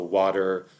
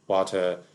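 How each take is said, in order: First: The middle consonant is a soft D sound. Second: The middle consonant is a clear T sound. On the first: "There's the North American D variant" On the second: "there's the British T variant"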